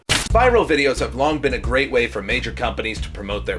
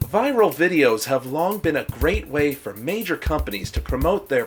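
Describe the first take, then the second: First: The voice is the speaker's ordinary voice. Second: The voice is put-on, soft and soothing. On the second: "talking in a more soothing, Griffin-like voice"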